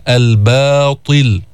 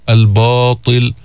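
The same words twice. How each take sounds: First: الباطل drawn out with thin ب; light ba, slow. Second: الباطل with thin ب before emphatic ط; slow الباطل, ب kept thin; light ba. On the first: Teacher repeats الباطل for students. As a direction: say الباطل slowly, ب unaffected by ط. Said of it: "قل الباطل". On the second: Teacher shows how to say الباطل. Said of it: "بتقول الباء". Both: Shown as a demonstration.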